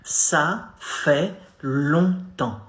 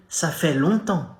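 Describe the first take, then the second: First: Ça fait longtemps stretched out slowly with nasal longtemps; slow teaching model; slow demo. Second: Ça fait longtemps at natural conversational speed; French at normal pace; natural demo. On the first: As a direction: draw out Ça fait longtemps for the learner. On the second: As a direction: say ça fait longtemps as in real chat. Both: Shown as a demonstration. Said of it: "Hey, salut".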